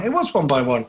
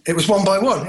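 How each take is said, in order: First: "was" picked out with emphasis; stress on WAS. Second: Said in the usual way. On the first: Real, not acted. Confirming the remembered show title, stress on WAS.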